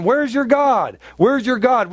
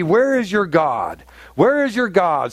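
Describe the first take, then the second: First: Higher, jeering mock of the Gentiles; mocking taunt. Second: Said in the usual way. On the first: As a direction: taunt him as his scoffers would. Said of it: "him, going". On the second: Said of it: "it says".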